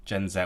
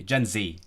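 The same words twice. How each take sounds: First: "Gen Z" with Z said as "zed"; British "zed" ending on "Gen Z". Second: "Gen Z" with Z said as "zee"; American "zee" ending on "Gen Z". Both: Shown as a demonstration. We are submitting to the cultural dominance.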